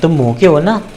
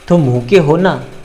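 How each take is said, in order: First: It sounds like a genuine open question. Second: It sounds like confirming something already known. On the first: The speaker does not know if the listener is hungry. "इसका मतलब ये निकल के आ रहा है कि क्या तुम भूखे हो" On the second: The speaker already knows the listener is hungry. "दूसरी बार मैं कह रहा हूँ ... मुझे पता है कि तुम तुम्हें भूख लगी है"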